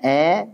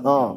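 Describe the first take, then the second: First: The vowel is thin and sounds close to e. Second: The vowel is thick and sounds close to o. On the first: "jangan. Juga jangan melas-melasan" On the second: "jadi tebal"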